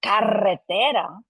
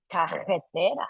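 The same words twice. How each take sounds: First: Carretera with a long rolled R; trilled double R. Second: Carretera with the R at the back of the mouth; velarized double R. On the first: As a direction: roll the double R in carretera, drawn out. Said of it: "So instead of". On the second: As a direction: swap the trill in carretera for a throaty back R. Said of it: "that's called a velarization". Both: Shown as a demonstration.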